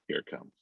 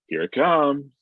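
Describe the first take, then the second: First: It is said quietly, with little energy. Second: It is said big, with lots of energy. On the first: The speaker gives nothing away. The speaker calls it right. "He was just out of energy" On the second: The speaker gives away that something is up. The speaker calls it wrong. "If you deliver the line like that, he's going to know something is up... a little bit less big"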